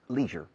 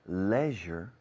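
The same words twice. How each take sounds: First: The word is said with an American pronunciation. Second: The word is said with a British pronunciation. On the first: "in America and Canada" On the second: "in the United Kingdom and Ireland"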